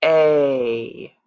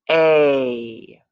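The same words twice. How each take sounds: First: Slow stretched vowel sound; drawn-out teaching sound; stretched slow sound again. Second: A long held vowel, turtle slow; stretched teaching sound. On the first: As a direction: hold the vowel long, calm and even. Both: Shown as a demonstration. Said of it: "say some words like a turtle".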